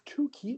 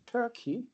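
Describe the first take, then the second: First: The first vowel is a plain 'oo' sound. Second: The first vowel is an 'ur' sound. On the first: The speaker calls it right. "it's two-key" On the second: The speaker calls it wrong. "not Turkey"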